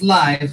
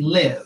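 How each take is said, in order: First: The vowel sounds like 'eye'. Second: The vowel sounds like 'ih'. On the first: Something is alive. "like that's a live chicken" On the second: Someone resides somewhere. "like we live here in Aurora"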